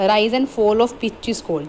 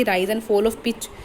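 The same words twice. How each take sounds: First: Very slow, word-by-word dictation of the question; reading the question out. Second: Said in the usual way. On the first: Shown as a demonstration. Teacher slowly reads the exam question aloud to students. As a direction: read each word slowly for the class to copy. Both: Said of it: "ਜਦੋਂ ਉਹਨੇ ਕਿਹਾ ਕਿ".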